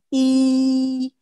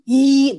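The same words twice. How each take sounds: First: The vowel resonates high and forward in mouth. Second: The vowel is squeezed out from the throat. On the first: The speaker calls it right. "tapi i dorong ke dinding atas" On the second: The speaker calls it wrong. "memaksa pita suara kita untuk keluar, misalnya i i no"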